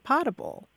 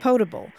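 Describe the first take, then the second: First: The first vowel is a short O sound. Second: The first vowel is a long O sound. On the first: "a whole lot of people say potable" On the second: "you have a long O in all of those words"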